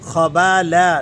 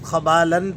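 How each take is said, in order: First: The word ends on a long 'a' vowel. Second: The word ends with an 'n' sound. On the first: The reader pauses at this word. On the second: The reader continues without pausing.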